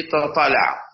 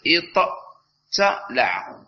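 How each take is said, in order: First: اطلع with one doubled emphatic ṭṭ; assimilated ṭā. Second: اطتلع drawn out very slowly, with a plain T after the Ṭ; unassimilated ta. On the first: Teacher giving students the merged form: اطلع with a doubled Ṭ. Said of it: "ثم تدغم". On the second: Teacher showing students the raw form: اطتلع, slow with a separate plain T. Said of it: "سوف تقول". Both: Shown as a demonstration.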